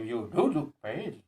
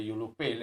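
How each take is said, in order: First: Emphatic "do" in "You do look pale"; stress on DO. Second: Said in the usual way. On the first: Shown as a demonstration. Telling someone who denies it, insistent stress on "do". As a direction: put the weight on "do" to insist. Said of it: "that means I lay emphasis on my statement". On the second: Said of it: "if I say to somebody".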